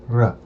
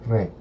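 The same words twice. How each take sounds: First: "r" said hard, with an "uh" sound; hard consonant on "r". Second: "re" softened, with an "eh" sound; soft consonant on "re". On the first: Learner repeating the contrast, hard R. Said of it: "instead of saying r". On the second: Learner repeating the contrast, soft R. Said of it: "I say re". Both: Shown as a demonstration.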